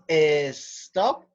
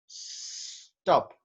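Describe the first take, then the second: First: An extra vowel sound comes before the s. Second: It starts directly with a hissing s sound. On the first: The speaker calls it wrong. "está mal dicho" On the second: The speaker calls it right. "El sonido de la S es el de una serpiente"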